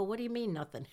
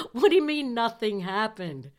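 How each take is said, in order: First: Said in the usual way. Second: Louder, disbelieving demand; incredulous outburst. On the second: Retold or imitated. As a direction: blurt it out in shocked disbelief. Incredulous retort to friend.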